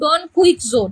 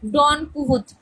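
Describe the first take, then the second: First: The name sounds like 'kwiksote' with a k-s cluster. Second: The name sounds like 'kee-hoh-tee' without a k-s cluster. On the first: The speaker calls it wrong. "অনেকে বলে এটা ডন কুইকজোড, কুইকজোড উচ্চারণটা হবে না" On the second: The speaker calls it right. "এটাকে বলতে হবে কি ডন কুহতি"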